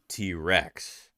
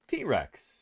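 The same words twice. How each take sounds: First: The stress falls on the word Rex. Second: The stress falls on the word T. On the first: Rex is the modifier that names the species. The speaker calls it right. "and not T Rex" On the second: It sounds like a pop-culture nickname. The speaker calls it wrong. "he said T Rex"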